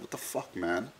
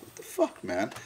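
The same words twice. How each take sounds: First: Breathless whispered what the fuck; whispered disbelief. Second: Squeaky disbelief. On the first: To himself in the forest, an unvoiced whisper. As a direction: hush it out in stunned disbelief. Retold confusion in the jungle. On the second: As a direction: squeal it out like you can't believe it. Retold frustration to friend, wife. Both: Retold or imitated.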